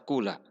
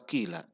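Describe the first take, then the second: First: The first vowel is a clear u sound. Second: The first vowel is a clear i sound. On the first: "boleh dibaca qula" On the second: "boleh dibaca juga qila"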